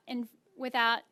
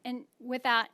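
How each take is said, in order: Both takes have the same delivery.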